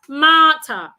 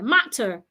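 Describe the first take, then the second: First: The vowel sounds are not short. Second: Both vowel sounds are short. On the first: The speaker calls it wrong. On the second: The speaker calls it right. "a short sound here and another short sound here"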